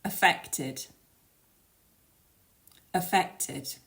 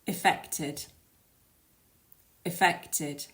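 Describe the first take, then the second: First: 'Affected' as three syllables, uh-FEK-tid; weak 'uh', stressed FECT, clear final tid in 'Affected'; affected with schwa. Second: 'affected' said as ih-FEK-tid, three syllables; weak short 'ih', stressed FECT, clear final tid in 'affected'; effected, initial i. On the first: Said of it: "try saying these after me". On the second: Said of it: "And the second one". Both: Shown as a demonstration.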